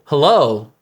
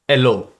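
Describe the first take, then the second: First: The h sound at the start is pronounced. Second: The h sound at the start is dropped.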